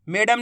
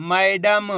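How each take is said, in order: First: "मैडम" said "may-dam", with a simple e; quick "मैडम" with "ay" for "ai"; wrong vowel shown. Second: "मैडम" said "ma-ey-dam", vowel opened out; corrected "ai" vowel. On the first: Teacher showing the mistake, mispronounced. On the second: Teacher correcting the vowel, carefully emphatic. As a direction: stretch "मैडम" into "mai-dam". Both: Shown as a demonstration. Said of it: "मैडम नहीं मैडम".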